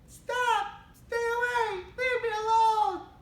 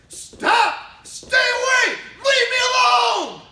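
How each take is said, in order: First: It is said weakly, without force. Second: It is said loudly, with forceful energy.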